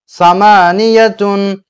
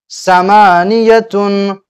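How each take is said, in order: No difference in how they are said.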